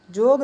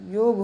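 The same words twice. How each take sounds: First: जोग said with a hard J, as the wrong form; जोग with a J, the mistake; wrong J sound. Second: योग said with a clear Y; correct Y sound. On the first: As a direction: say जोग with J to show the error. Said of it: "जोग नहीं होता". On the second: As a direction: say योग with Y, the right way. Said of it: "योग होता है". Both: Shown as a demonstration.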